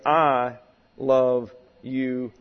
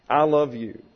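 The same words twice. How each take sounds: First: "I love you," slow, with "I" clearly stressed; slow it down and press on "I". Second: "I love you." with the weight falling on "you"; stress on the object. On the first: Preacher teaching how a love affair must begin, stressing "I". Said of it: "with emphasis on the". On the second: Preacher showing a husband stressing "you" to his wife. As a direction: lean into "you", the one you love. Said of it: "The object gets the emphasis". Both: Shown as a demonstration.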